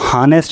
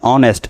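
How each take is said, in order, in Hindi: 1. यह शब्द h की ध्वनि से शुरू होता है। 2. यह शब्द स्वर की ध्वनि से शुरू होता है। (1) "इसको हम हानेस्ट नहीं पढ़ते, एच की आवाज़ नहीं" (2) "इसको हम पढ़ते हैं ऑनेस्ट"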